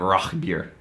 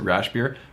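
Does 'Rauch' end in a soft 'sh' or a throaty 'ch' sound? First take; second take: throaty ch; soft sh. First: The word ends with a throaty 'ch' sound. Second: The word ends with a soft 'sh' sound. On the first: The speaker calls it right. "it's pronounced Rauch malt and Rauch beer" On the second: The speaker calls it wrong. "Some people pronounce it Rausch beer"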